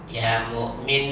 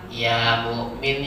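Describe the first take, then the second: First: The final vowel is short. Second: The final vowel is drawn out long. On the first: The speaker calls it right. "Minnya pendek" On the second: The speaker calls it wrong. "Ada yang memanjangkan malahan"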